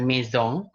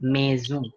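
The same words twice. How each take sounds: First: "maison" said with a hard S; mock-wrong "maison" with an S; wrong S sound. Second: "maison" said slowly with a buzzing Z; slow, careful "maison" with a Z; correct Z sound. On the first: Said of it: "S-nya bukan dibaca S". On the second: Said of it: "tapi dia jadi Z". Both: Shown as a demonstration.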